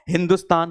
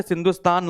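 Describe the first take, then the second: First: "हिंदुस्तान" with h replacing initial s; Persian pronunciation. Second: Said in the usual way. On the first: Shown as a demonstration. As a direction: say Sindhustan as "हिंदुस्तान", h first and plain d. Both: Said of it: "सा बन गया हा और धा बन गया दा".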